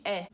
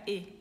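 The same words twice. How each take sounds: First: "E" as an open "é", as in "pé". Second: "E" as a closed "ê". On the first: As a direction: say the letter E with an open vowel. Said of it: "é o som de E". ("E" aberto, som de "é") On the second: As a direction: narrow the vowel E to "ê". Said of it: "fica mais fechado". ("E" fechado, som de "ê") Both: Shown as a demonstration.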